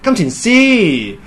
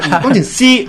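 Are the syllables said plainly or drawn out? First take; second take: drawn out; plain. First: The syllables are stretched with a winding melody. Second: The syllables are said plainly without stretching. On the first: "即係要拉啦" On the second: "金錢師係唔得嘅"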